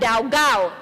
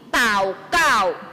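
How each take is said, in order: First: It begins with d and has g. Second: It begins with t and has k. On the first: The speaker calls it wrong. "bukan daugao" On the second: The speaker calls it right. "tapi taukao"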